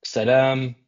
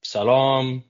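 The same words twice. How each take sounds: First: "Salam" said sa-LAM, both vowels as in "cat"; "Salam" with an open front a, like "lamb"; Salam with short flat a's. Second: "Salam" said suh-LAHM, long back ah; "Salam" with a reduced first vowel and broad "lahm". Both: Shown as a demonstration. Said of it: "whether it's pronounced as".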